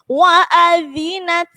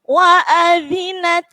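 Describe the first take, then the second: The two takes are said the same way.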